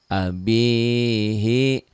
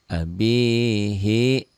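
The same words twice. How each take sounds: The two takes are said the same way.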